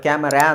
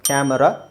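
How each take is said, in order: First: The final vowel is a long 'aa'. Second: The final vowel is a short 'a'. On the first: The speaker calls it wrong. "ಕ್ಯಾಮರಾ ಅಂತ ಹೇಳಲ್ಲ" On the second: The speaker calls it right. "ಅ ಚಿಕ್ಕದಾಗಿ ಬರುತ್ತೆ"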